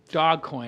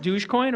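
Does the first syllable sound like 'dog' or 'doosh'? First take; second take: dog; doosh. First: The first syllable sounds like 'dog'. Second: The first syllable sounds like 'doosh'.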